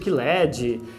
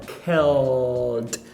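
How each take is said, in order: First: An extra vowel sound comes between L and D. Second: A dark L runs straight into the D. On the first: The speaker calls it wrong. "a gente naturalmente quer falar killed" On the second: The speaker calls it right. "Você vai fazer aquele L velar, ou seja, ó, ó, ó, mais um D"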